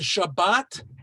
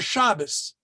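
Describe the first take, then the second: First: The word ends with a T sound. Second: The word ends with an S sound. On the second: "without a dot they say S"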